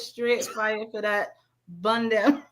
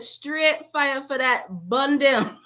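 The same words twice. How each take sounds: First: It is read in her plain own voice. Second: It is read in a put-on imitating voice.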